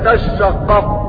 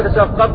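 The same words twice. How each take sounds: First: The shin sound is long and doubled. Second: The shin sound is short and single. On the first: "في التشديد" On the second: "بتخفيف الشين"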